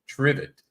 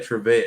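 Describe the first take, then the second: First: The name is said like the word trivet. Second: The name is said as tre-vette. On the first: This is how the place's own people say it. "I think the guys actually pronounce it uh" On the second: This is how the speaker's group says it. "we say Trevette"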